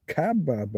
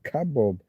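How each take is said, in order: First: "kebab" said KAB-ab, A in both syllables; variant spelling pronunciation. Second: "kebab" said ka-BOB; variant spelling pronunciation. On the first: Streamer reading variant spellings, full-A pronunciation. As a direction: say "kebab" as ka-BAB with a full first A. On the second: Streamer reading variant spellings, ka-bob pronunciation. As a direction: say "kebab" with a full first A, ending in "bob". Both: Shown as a demonstration. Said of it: "English films for the same dish".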